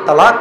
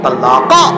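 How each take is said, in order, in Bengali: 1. শব্দটি একটি সাধারণ ব্যঞ্জনবর্ণে শেষ হয়। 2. শব্দটি একটি যুক্ত প্রতিধ্বনিমূলক স্বরধ্বনি দিয়ে শেষ হয়। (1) "तूने जो कहा है ये तलाक कहा है" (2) "इसका जो असली प्रोनाउंसिएशन है वो ये है कि तलाका"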